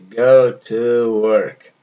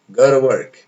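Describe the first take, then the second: First: Each word is pronounced fully and separately. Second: The words are reduced and run together. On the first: "Em vez de" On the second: "Olha lá"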